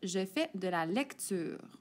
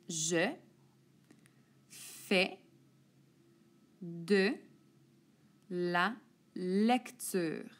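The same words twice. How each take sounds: First: The sentence is read at a quicker pace. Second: The sentence is read at a slower pace.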